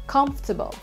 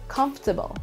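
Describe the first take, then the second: No difference in how they are said.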